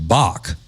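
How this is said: It is said with a traditional North Carolina accent.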